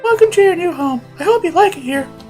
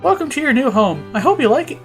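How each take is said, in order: First: It is said in a put-on character voice. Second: It is said in the reader's own natural voice.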